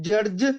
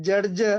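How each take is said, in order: The two takes are said the same way.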